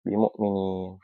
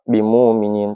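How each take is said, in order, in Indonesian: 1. Hamzah diucapkan dengan jelas. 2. Hamzah diganti dengan vokal panjang. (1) "bitahqiq seperti biasa" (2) "dengan ibdal pada saat waqaf"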